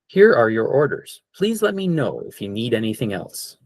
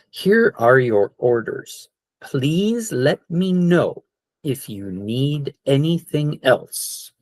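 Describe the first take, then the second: First: It is said a little faster. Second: It is said at a normal speed.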